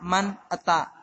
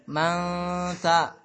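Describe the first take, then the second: First: The n is pronounced clearly as n. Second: The n is blurred into a nasal ng. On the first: The speaker calls it wrong. "bukan man ta" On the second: The speaker calls it right. "jadi eng"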